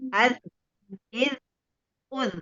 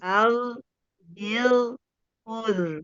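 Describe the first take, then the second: First: The consonant sound cuts off with no residue. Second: The consonant sound carries on with audible residue. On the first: The speaker calls it wrong. "jangan begini Bun" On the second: The speaker calls it right. "masih ada sisa suara"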